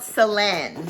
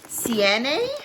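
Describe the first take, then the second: First: The L sound in the name is heard. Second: The L sound in the name is silent. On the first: "it's spelled Selene" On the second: "they pronounced it Siene ... I don't know if the L is silent"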